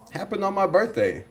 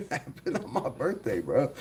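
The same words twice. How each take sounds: First: Said in the usual way. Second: Soft, laughing through the words. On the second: Real, not acted. Streamer laughing to chat about his birthday news. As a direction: laugh it out quietly in disbelief. Repeats line, second time laughing.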